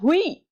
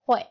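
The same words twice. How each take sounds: First: The vowel is read as separate oo and ee. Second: The vowel sounds like 'way', a w glide. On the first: The speaker calls it wrong. "jangan dibaca hui" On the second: The speaker calls it right. "Harusnya dibacanya adalah hui"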